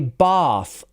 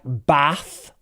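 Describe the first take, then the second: First: The vowel is a long back ah. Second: The vowel is a short flat a. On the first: "In R P, we use this sound, ah. So we say bath" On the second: "some people will use a for things like bath"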